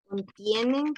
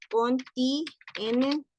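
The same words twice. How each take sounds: First: Said in the usual way. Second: "contienen" drawn out very slowly in pieces; syllable-by-syllable dictation. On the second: Real, not acted. Teacher saying it as she writes, slow syllabled dictation. Dictating while writing on screen.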